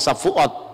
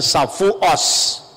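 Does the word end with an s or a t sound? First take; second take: t sound; s sound. First: The word ends with a t sound. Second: The word ends with an s sound. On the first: "Yahudi Spanyol itu lebih fasih bahasa Ibrani. Kalau ngomong Safuot ya Safuot" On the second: "dia tidak bisa ngomong huruf T, ... tapi mengucapkan Safuos"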